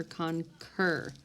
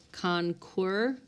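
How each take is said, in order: First: "concur" said as con-KUR; plain hard k starting the second syllable of "concur", no w; k sound. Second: "conquer" said as con-KWUR; mispronounced with qua. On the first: Teacher giving students the right sound, "concur" with a plain k. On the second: Teacher testing the wrong sound for students, "conquer" with a kw. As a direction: put a kw sound in the second syllable of "conquer". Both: Shown as a demonstration. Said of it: "it gives the k sound".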